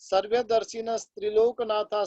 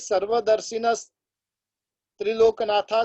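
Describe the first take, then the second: First: The two words are run together, joined. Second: The two words are said separately, split apart. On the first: The speaker calls it right. "इस प्रकार से पूरा का पूरा साथ में बोलना है" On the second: The speaker calls it wrong. "इस प्रकार से ये स्तोत्र बोला जाता नहीं है"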